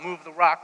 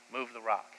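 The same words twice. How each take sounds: First: "rock" thrown back loud and high in disbelief; incredulous outcry. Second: Said in the usual way. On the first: Acted. Crowd repeats Jesus's order, loud and appalled.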